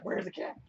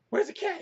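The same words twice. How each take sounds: First: Soft conspiratorial whisper to the dog. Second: Much higher, louder excited pet talk; squeaky pet voice. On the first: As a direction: hush it like a secret. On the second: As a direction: hype the dog up in a squeak. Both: Real, not acted. Teasing his dog.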